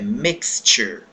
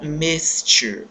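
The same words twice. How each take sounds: First: The x is said as ks. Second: The x is said as s or sh. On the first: The speaker calls it right. "esse som do X tem um som de K S" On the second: The speaker calls it wrong. "E não mixture"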